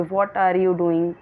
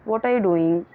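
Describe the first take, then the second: First: "What are you doing?" dragged out word by word; teacher's example of how not to say it; wrong, slow way. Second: Said in the usual way. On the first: Shown as a demonstration. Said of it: "हम ऐसे नहीं बोलेंगे". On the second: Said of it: "नहीं".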